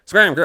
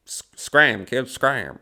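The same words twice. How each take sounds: First: Loud, high barked scram; fifties movie shout. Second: Put-on grumpy scram, kid; old movie brush-off. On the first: Retold or imitated. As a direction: yell it like a fifties movie tough guy. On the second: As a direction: shoo the kid away, fifties gangster style. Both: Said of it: "it's a nineteen fifties movie".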